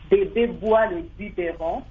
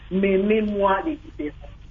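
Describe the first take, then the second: First: The opening consonants are clear oral b sounds. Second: The opening consonants come out as nasal m sounds. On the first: The speaker calls it right. "Je donnerai plutôt un exemple pour dire" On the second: The speaker calls it wrong. "L'enfant qui a un problème de son oraux, il dira"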